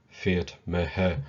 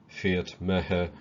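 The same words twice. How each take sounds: The two takes are said the same way.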